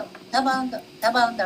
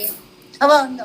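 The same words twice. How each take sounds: First: "ఎంత బాగుందో" ని మెల్లగా, తగ్గించిన గొంతుతో; మళ్ళీ అదే మాటను మృదువుగా ఆస్వాదిస్తూ; soft repeated admiration. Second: పూర్తి గొంతుతో "ఎంత బాగుందో" అని మెచ్చుకోలుగా; "బాగుందో" ని గట్టిగా, ఆశ్చర్యంగా పలకండి; admiring exclamation. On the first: (నెమ్మదిగా గుసగుసలా "ఎంత బాగుందో") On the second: (మెచ్చుకుంటూ బిగ్గరగా "ఎంత బాగుందో") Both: Shown as a demonstration. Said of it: "డెబ్బై సార్లు అంటాం".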